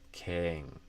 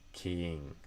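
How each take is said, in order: First: The vowel is a short ih sound. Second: The vowel is a long ee sound. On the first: This is the speaker's own way of saying it. "I tend to do is more of a kit vowel" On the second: This is how some regional accents say it. "you might hear more of a e sound in the ing"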